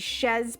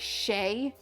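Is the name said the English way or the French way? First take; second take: English; French. First: The name is said with a final z sound. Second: The name is said without a final z sound. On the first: The speaker calls it right. "I know it's supposed to be Shez plus cats" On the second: The speaker calls it wrong. "my brain always wants to pronounce it with a French accent, so I say Shay, and that is incorrect"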